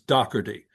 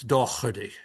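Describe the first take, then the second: First: The middle consonant is a hard K sound. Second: The name is said in an Irish accent. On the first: "my family took the hard K ... without the accent becomes Doherty" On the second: "if you have an Irish accent, it's Doherty"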